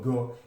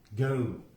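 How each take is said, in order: First: The vowel is a single pure o sound. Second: The vowel glides from one sound into another. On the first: The speaker calls it wrong. "mungkin bahasa Nusantara itu go" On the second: The speaker calls it right. "ada diftong pada bunyi go, ada eu"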